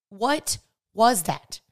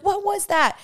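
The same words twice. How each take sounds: First: Very slow, drawn-out puzzled "What was that?"; slow bewildered question. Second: Put-on much higher, startled kids shrieking the question; shocked shriek. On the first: Retold or imitated. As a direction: stretch it out, honestly lost. Genuinely confused child, retold. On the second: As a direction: squeal it like kids catching a shock on TV. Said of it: "we all literally started screaming".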